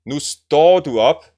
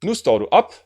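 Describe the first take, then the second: First: "står" stressed, louder and slow. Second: "op" stressed with a quick rise, "står" light. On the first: Teacher reading the first version again, står stressed. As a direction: lean hard into "står", rising end. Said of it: "Here we are saying". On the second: Teacher showing the contrast version, op stressed. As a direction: snap the stress onto "op". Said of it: "And if I say". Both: Shown as a demonstration.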